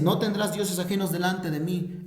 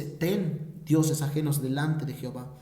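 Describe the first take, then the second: First: Said in the usual way. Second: A touch lower, the devil coaxing; low sly enemy twisting the commandment; lower tempting devil voice. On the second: Acted. Preacher voicing the enemy to his congregation, lower and coaxing. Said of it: "El enemigo te dice".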